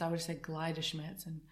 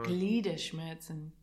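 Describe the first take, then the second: First: Gliederschmerzen with the ie said as English eye, klai; wrong pronunciation. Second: Gliederschmerzen with a long German ee, glee; correct pronunciation. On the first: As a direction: say Gliederschmerzen with eye in the first part. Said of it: "I'm glad you said that first". (Gliederschmerzen said like klaider) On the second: (Gliederschmerzen as German gleeder) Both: Shown as a demonstration.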